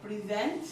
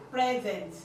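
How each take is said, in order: First: "present" as pri-ZENT, second syllable stressed; verb pronunciation. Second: "present" as PREZ-ent, first syllable stressed; noun pronunciation. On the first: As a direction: say "present" like the verb, pitch rising at the end. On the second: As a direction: say "present" like the noun, falling at the end. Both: Shown as a demonstration. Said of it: "different pronunciation and different meaning".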